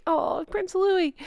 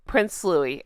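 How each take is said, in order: First: High, soft, drawn-out aww; fond cooing. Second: Said in the usual way. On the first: Real, not acted. Host naming Catherine's new baby, fond cooing. Coos over the baby prince.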